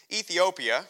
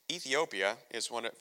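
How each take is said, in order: First: "Ethiopia" called out louder and high; announcing emphasis. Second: Said in the usual way. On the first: Real, not acted. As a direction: proclaim "Ethiopia" like a headline. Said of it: "I don't know how many people know this". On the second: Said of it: "fun piece of trivia".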